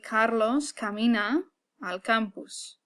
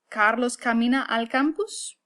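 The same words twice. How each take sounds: First: The voice falls at the end like a statement. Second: The voice rises at the end like a question.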